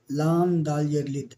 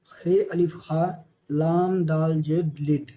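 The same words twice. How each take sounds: First: Said in the usual way. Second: Slow spelling out. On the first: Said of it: "teacher repeats spelling". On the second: Shown as a demonstration. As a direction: spell out each letter slowly. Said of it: "teacher sounds out spelling". (حروف آہستہ آہستہ ادا کرنا)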